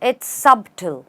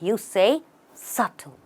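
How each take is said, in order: First: A B sound is heard in the middle. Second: No B sound is heard in the middle. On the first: The speaker calls it wrong. "you don't say it that way" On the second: The speaker calls it right. "The B is silent"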